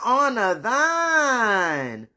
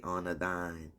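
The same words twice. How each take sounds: First: Loud, high, long-drawn holler; mock proclamation. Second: Said in the usual way. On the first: Quoting the good book about her father, hammed-up loud proclamation. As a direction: stretch THINE out into a big loud wail. Drawn-out comic repeat of scripture.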